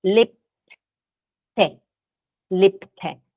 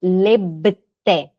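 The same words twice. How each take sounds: First: "Lebte" with a crisp P sound, lep-te; pronunciation demo. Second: "lebte" with a clear voiced B; wrong pronunciation. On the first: Teacher modelling the right "Lebte" with a P sound. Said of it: "a gente fala com som de P". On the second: Teacher showing the students' mistaken "lebte" with a B. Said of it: "Não vão falar aqui". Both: Shown as a demonstration.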